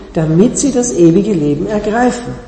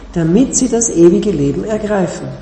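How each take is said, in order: No difference in how they are said.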